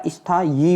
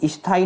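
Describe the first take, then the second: First: स्थाई ending in yee; correct form. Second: स्थाई ending in bare ee; no y glide in स्थाई; wrong form. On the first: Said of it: "होता है". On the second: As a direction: say स्थाई as is-thaa-ee. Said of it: "नहीं होता मेरे भाई". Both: Shown as a demonstration.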